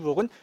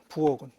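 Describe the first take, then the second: First: The consonant before the last vowel is plain. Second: The consonant before the last vowel is aspirated. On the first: This is how people actually say it. "이 부억은 현실 발음이에요" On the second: This is the standard pronunciation. "얘는 표준 발음이야"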